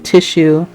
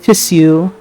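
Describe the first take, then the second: First: The word is said a non-British way. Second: The word is said the British way. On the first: The speaker calls it right. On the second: The speaker calls it wrong.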